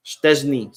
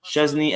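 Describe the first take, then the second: First: Szczęsny begun with sht, "SHTEZ-nee"; with T sound. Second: Szczęsny begun with a plain sh, no T; no T sound. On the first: Shown as a demonstration. Explaining the spelling to a viewer, Szczęsny with a clear T sound. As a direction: say Szczęsny with a T after the sh. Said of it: "the C Z make the T sound". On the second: Retold or imitated. Reading a viewer's correction, Szczęsny without a T sound. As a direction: say Szczęsny as "SHEZ-nee", leaving out the T. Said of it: "There is no T sound".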